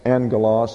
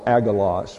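First: The double gamma is pronounced with an 'ng' sound. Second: The double gamma is pronounced with a hard 'g'. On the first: The speaker calls it right. "The first G has an N sound" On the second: The speaker calls it wrong. "would be the incorrect pronunciation"

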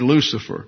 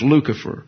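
First: The middle consonant is a soft S sound. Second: The middle consonant is a hard K sound. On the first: This is the English pronunciation. "in the English, and you pronounce it a soft C" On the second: This is the Latin pronunciation. "In the Latin, the C's get K sound"

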